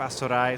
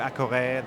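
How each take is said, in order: First: It is said the way Brazilian speakers say it. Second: It is said the way French speakers say it. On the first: "the Brazilians go for" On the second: "The French go for"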